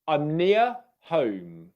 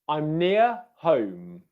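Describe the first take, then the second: No difference in how they are said.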